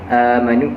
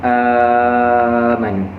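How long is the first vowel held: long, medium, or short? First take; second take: short; long. First: The first vowel is held for two beats. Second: The first vowel is held for six beats.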